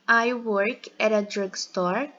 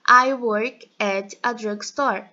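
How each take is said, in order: First: The words run together with no pauses. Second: Short pauses separate the words. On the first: "houve a conexão entre o at e o artigo indefinido" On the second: "se eu fosse falar com as pausas"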